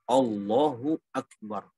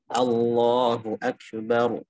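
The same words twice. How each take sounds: First: The opening vowel drifts toward o. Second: The opening vowel is a clear a. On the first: The speaker calls it wrong. "itu malah bunyi o" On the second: The speaker calls it right. "hamzahnya hamzah tarkib"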